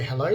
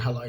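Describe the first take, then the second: First: The word is said in a polite, friendly tone. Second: The word is said in an aggressive, hostile tone. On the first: "it's very polite" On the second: "like aggression"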